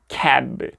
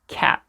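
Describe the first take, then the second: First: The final b is released loudly and strongly. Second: The final b is soft and barely released. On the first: The speaker calls it wrong. "그냥 이제 크게 cab, cab 이런 식으로 표현해 줄 필요까지는 없어요" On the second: The speaker calls it right. "B가 이렇게 단어 끝에 올 때는"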